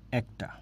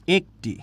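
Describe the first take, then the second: First: একটা said with a wide open æ, like ækta; teacher says একটা with the open sound. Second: একটি read with a closed e, as written; teacher says একটি the wrong way; wrong reading ekti. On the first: Teacher to students, showing the correct open একটা. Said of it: "এটার উচ্চারণ কিন্তু একটা". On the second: Teacher to students, showing the wrong reading একটি. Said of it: "এটার উচ্চারণ কিন্তু একটি না". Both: Shown as a demonstration.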